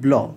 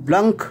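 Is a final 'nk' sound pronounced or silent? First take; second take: silent; pronounced. First: The word ends without any 'nk' sound. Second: The word ends with an audible 'nk' sound. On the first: The speaker calls it right. "এটা হবে ব্ল" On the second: The speaker calls it wrong. "এটা উচ্চারণ হবে না"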